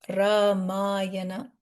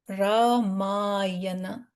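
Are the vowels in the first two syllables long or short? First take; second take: short; short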